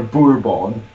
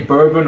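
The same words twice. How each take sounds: First: "bourbon" as boor-BON; French-style "bourbon" with a full nasal ending; second option. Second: "bourbon" as BUR-bun; first option. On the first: Repeating the question to Mum, "bourbon" as boor-BON. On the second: Repeating the question to Mum, "bourbon" as BUR-bun. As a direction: say "bourbon" with a short, unstressed ending. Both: Shown as a demonstration. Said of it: "Do you say bourbon or bourbon".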